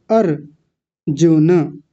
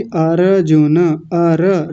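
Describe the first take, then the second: First: अर्जुन slowly as AR-JU-NA; correct half R. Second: अर्जुन drawn out slowly as a-RA-ju-na; wrong full RA. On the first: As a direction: close the R straight onto JU in अर्जुन, very slow. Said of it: "र तो आधा है". (अर्जुन में आधा 'र', धीरे-धीरे अर्-जु-न) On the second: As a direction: give अर्जुन a full vowel after the R. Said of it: "र को पूरा कर रहे हैं". (अर्जुन का 'र' पूरा, अ-र-जु-न) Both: Shown as a demonstration.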